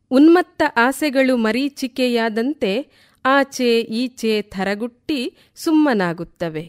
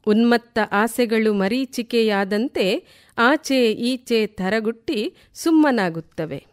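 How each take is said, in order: Both takes have the same delivery.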